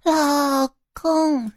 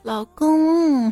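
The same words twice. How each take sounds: First: The first syllable is drawn out long. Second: The second syllable is drawn out long.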